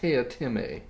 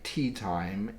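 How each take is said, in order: First: It is said with three syllables, teh-ah-time. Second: It is said like the two words tea time. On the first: The speaker calls it right. "it's pronounced Teotime" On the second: The speaker calls it wrong. "whose name is spelled tea time, you heard that right"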